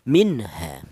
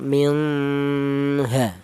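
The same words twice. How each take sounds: First: The n sound is pronounced clearly and distinctly. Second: The n sound is blurred and muffled. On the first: The speaker calls it right. "Yang betul nun matinya ini dibaca jelas atau dibaca idhar" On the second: The speaker calls it wrong. "Jangan nun matinya ini dibaca samar, jangan minha, salah ya"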